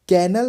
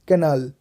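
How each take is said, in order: First: The vowel after the n is light. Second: The vowel after the n is heavy. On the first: The speaker calls it wrong. "कैनल नहीं" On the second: The speaker calls it right. "एन के बाद जो अ का sound है वो थोड़ा heavy होगा"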